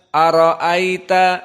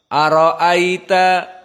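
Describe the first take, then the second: The two takes are said the same way.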